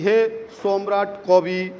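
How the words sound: It is read with a Bengali pronunciation. "अगर आप बंगला के साथ पढ़ेंगे इसे तो आप कैसे पढ़ेंगे?"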